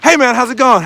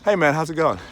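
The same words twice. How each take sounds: First: It is said with lively enthusiasm. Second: It is said in a flat, subdued way.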